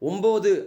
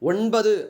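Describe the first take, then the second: First: It has an m sound in the middle. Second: It has an n sound in the middle. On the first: This is the everyday spoken form. "பேச்சொலக்கு சொல்" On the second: This is the pure literary form. "தூய தமிழ் சொல்"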